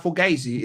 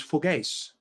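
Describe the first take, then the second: First: Said in the usual way. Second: "fugais" without the final ee sound; New York slang "fugais", two syllables; clipped-ending slang pronunciation. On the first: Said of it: "it's fugais". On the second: Shown as a demonstration. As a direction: say "fugais", dropping the last vowel. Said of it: "It's not fugazi".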